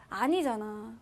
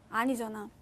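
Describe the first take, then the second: Both takes have the same delivery.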